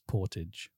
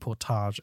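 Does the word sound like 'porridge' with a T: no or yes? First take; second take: yes; no. First: It is said like porridge with a T. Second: It is not said like porridge with a T. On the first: The speaker calls it right. "porridge with a T" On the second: The speaker calls it wrong. "So I was saying Portage Avenue"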